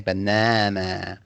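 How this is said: It is said in an American accent. "obviously that's the American accent. You know, they say banana"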